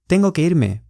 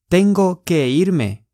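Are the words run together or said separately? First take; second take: run together; separately. First: The words are said quickly and run together. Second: The words are said slowly and separately. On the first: The speaker calls it right. "比较快，就都会练音" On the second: The speaker calls it wrong. "不是"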